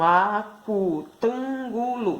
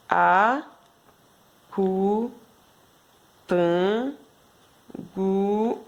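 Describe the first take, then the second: First: Slow whole word. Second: A-cu-tan-gu-lo, each syllable drawn out with long gaps; split into syllables. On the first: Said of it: "Então, cinco sílabas". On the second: Teacher shows the class how to split the word into syllables. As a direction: slowly break "Acutangulo" into its five syllables. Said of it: "você faz assim, ó". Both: Shown as a demonstration.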